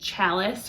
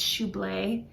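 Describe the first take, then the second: First: The word is said like 'chalice'. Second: The word is said like 'shab-lee'. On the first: The speaker calls it wrong. "I think I said like chalice or something" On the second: The speaker calls it right. "It's Choublé"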